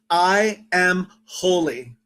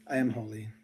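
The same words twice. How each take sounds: First: It is said with strong, audible feeling. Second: It is said flatly, without feeling.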